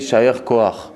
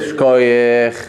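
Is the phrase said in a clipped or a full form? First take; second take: full; clipped. First: The phrase is said fully as two separate words. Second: The phrase is squeezed into one short clipped word. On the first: The speaker calls it right. "mais en vérité c'est Ishayer Koach" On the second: The speaker calls it wrong.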